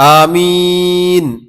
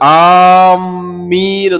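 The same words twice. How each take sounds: First: The first vowel is kept short. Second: The m sound is doubled and held. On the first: It asks that the prayer be answered. The speaker calls it right. "അലിഫിന്റെ നീളം കുറച്ചുകൊണ്ട്" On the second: It means intending or aiming for something. The speaker calls it wrong. "മീമിന് ഷദ്ദ് കൊടുത്തുകൊണ്ട്"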